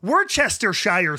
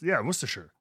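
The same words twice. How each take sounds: First: The word is read out syllable by syllable. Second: The word is said in its short, reduced form. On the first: "when I was like 10 years old and I saw it in the fridge" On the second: "it's got it"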